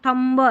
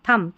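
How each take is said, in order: First: The word ends with an audible b sound. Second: The word ends on the m sound. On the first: The speaker calls it wrong. "थम्ब ऐसा याद रखते हैं, लेकिन नहीं" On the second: The speaker calls it right. "बी यहाँ पर silent रहता है"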